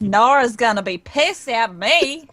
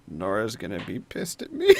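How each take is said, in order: First: Openly voiced worry, not muttered; Mila's voice. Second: Low, soft mutter rising at the end; muttered under breath. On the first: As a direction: echo it aloud as Mila. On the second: Acted. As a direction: mutter it to yourself, half amused. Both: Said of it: "Mila mutter under Al's breath".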